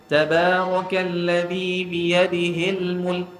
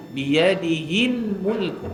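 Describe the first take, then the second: First: Slow, biyadihil said with an e vowel; imitating wrong reading. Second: Slow, biyadihil with a clear i vowel; correct hi. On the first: Teacher imitating a student's wrong vowel. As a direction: chant it slowly, biyadihil almost like biyadehil. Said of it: "tadi ada dengar yang baca". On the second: Shown as a demonstration. Teacher modelling the correct hi vowel. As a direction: say biyadihil slowly, a clean i. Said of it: "Biyadihi hil mulk".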